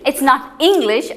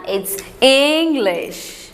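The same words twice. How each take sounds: First: Said in the usual way. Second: It's English drawn out slowly with a wavy, musical tune. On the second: Shown as a demonstration. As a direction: sing the phrase it's English slowly and melodically.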